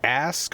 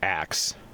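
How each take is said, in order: First: The word ends with the sounds s then k. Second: The word ends with the sounds k then s. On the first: "A S K" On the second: "one of the people that we hang out with says axe"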